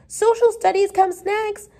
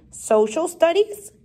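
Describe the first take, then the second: First: High, eager schoolgirl voice; high-pitched, excited pupil; eager cry. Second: Higher, questioning echo; mildly incredulous teacher, rising at the end; puzzled query. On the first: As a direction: pipe up keenly with the answer. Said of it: "cried Elizabeth Gardner eagerly". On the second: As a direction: repeat it as a doubtful question. Teacher puzzled by pupil's suggestion. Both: A narrator's reading.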